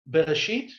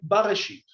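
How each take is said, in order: First: The first syllable has an 'e' vowel. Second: The first syllable has an 'a' vowel. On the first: It means 'in a beginning', without the article. The speaker calls it wrong. "you cannot actually say Bereshit" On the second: It means 'in the beginning', with the article. The speaker calls it right. "You should say Barashit"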